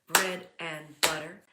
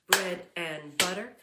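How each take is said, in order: Both takes have the same delivery.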